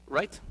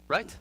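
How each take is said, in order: Both takes have the same delivery.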